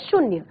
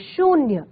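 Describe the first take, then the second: First: The vowel after sh is short. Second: The vowel after sh is long. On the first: The speaker calls it wrong. "इसमें छोटे ऊ की मात्रा है" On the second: The speaker calls it right. "सही उच्चारण करेंगे"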